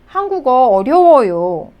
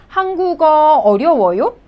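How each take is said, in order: First: 한국어 어려워요 with a falling end, as an answer; statement tune. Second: 한국어 어려워요 with a rising end, as a question; questioning tune. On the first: Teacher answers the example question, 한국어 어려워요 stated with a fall. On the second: Teacher gives learners an example sentence, 한국어 어려워요 asked with a rise. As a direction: lift the end of 어려워요 to ask it. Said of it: "you could make a sentence like". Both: Shown as a demonstration.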